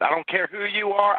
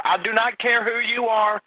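First: Slow, higher, deliberate words; "I don't care who you are" dragged out and raised in pitch; exasperated. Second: "do not" split apart, with "not" hit higher and slower; "not" punched hard, slowed and high-pitched; stress on NOT. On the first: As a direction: spell it out to a pest, losing patience. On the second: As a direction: hammer "I do not care" word by word. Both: Real, not acted. Fed-up dispatcher with prank caller.

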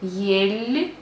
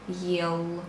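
First: Ель held on a light palatal "l"; soft L. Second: Ел ending low on a dark, hard "l". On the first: Teacher contrasting the difference between endings, soft L. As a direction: stretch ель and soften its L. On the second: Teacher contrasting the difference between endings, hard L. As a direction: keep the L of ел unsoftened. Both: Shown as a demonstration. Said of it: "you see the difference between".

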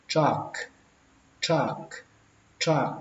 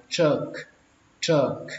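First: "truck" with an open a, like "trak"; first way of TRUCK. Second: "truck" with a central vowel, like "chơk"; second way of TRUCK. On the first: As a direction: say "truck" with a short ah vowel. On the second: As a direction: say "truck" with ơ in place of a. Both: Shown as a demonstration. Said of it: "Cách thứ hai đọc là".

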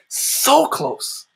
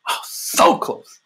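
First: Higher, ringing repeat of so close; lifted awe. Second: Slow breathless whisper of awe; awed hush. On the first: Preacher marvelling at how close the Father is, higher lifted repeat. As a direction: lift it up in wonder. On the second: Preacher marvelling at how close the Father is, slow awed whisper. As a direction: marvel at it under your breath. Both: Real, not acted.

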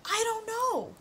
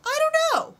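First: High, whiny I don't know; exasperated. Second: High, loud squealed I don't know; exasperated squeal. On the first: Game won't take the name, she whines high. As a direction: throw up your hands. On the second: Game won't take the name, she shrieks high and loud. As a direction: shriek in frustration. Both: Real, not acted.

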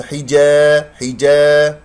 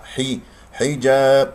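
First: Loud "حجا" with the aa bent towards ee; wrong alif sound. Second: "حجاب" with clear i and open long aa; correct hijab. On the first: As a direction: draw out "حجا" with a tilted, incorrect alif. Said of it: "هذا صوت ألف غير صحيح". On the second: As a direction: say "حجاب" slowly, alif open and unbent. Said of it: "كسرة الحاء". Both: Shown as a demonstration.

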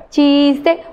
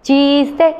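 Both takes have the same delivery.

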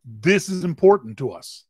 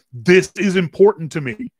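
First: Measured stress on "important", at usual pitch; changed emphasis. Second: "This is important" punched higher and louder; changed emphasis. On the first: Coach showing a second emphasis, "important" stressed in even pitch. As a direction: lean on "important" without raising the voice. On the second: Coach showing how to change emphasis, "This is important" punched high. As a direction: hit "This" and "important" hard, raised voice. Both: Shown as a demonstration. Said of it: "Change emphasis on your voice".

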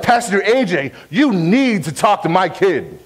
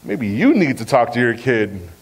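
First: Imitating a frustrated parent, pitched higher; mildly exasperated mock complaint, raised in pitch. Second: Lower, drawn-down comeback to a parent; pointed retort. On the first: Parent complaining to the youth pastor about their kid, frustrated. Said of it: "come up to me frustrated". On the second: Retold or imitated. Youth pastor handing the job back to a parent, pointed retort. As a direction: turn the complaint back on them, pitched low. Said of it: "And I'd be like".

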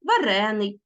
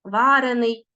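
First: Варений stressed on the second syllable, РЕ; shifted stress. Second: Варений stressed on the first syllable, ВА; stress on the root. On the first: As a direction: say Варений as ва-РЕ-ний. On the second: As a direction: say Варений as ВА-рений. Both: Shown as a demonstration. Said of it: "наголос".

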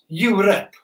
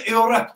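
First: Europe said plainly as "yurup"; standard Europe. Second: Europe with a Welsh sound, like "ilrep". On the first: Soldier explaining to non-Welsh kids, Europe said "yurup". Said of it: "For those of you who aren't Welsh, that's Europe". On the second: Welsh soldier reading the captain's order to kids, Europe said "ilrep". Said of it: "For those of you who aren't Welsh". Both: Shown as a demonstration.

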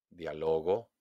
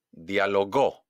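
First: Soft, low "dialogó", weight on LO instead of GÓ; stress on middle LO. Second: "dialogó" punched on the last GÓ; stress on final GÓ. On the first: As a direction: lean softly on LO in "dialogó". ("dialogó" suave, acentuado en LO) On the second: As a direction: land hard on GÓ in "dialogó". ("dialogó" con golpe de voz en GÓ) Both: Shown as a demonstration. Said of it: "hago un golpe de voz".

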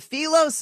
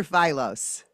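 First: "Philos" said FEE-lohs, with a long ee; first pronunciation option. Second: "Philos" said FY-lohs, rhyming the start with eye; alternative pronunciation. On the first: Host asking guest which name is right, "Philos" as FEE-lohs. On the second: Host offering guest the other option, "Philos" as FY-lohs. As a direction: pronounce "Philos" with FY as the first syllable. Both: Shown as a demonstration. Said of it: "Is it Philos or Philos?".

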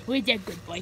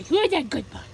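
First: Dog praise. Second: Higher, sing-song dog-talk voice; higher puppy-praise voice. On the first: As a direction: coo it low to the dog. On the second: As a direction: lift it up playfully for the dog. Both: Real, not acted.

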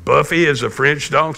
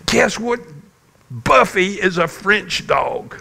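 First: Dad checking his daughter's surprising news; retold questioning father; questioning echo. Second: High-pitched retold child's excitement; excited little girl. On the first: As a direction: repeat it back as a mild, puzzled question. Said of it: "So I said". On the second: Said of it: "you were so excited".

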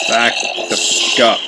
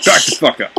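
First: Said in the usual way. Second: Higher, louder second warning; louder repeat. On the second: Real, not acted. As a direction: snap it again, higher and louder.

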